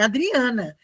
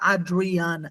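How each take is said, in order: First: The name is said with a Brazilian accent. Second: The name is said with an English accent. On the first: This is how the name really is. "meu nome é Adriana" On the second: This is how a foreigner would say it. "ele vai falar Adriana"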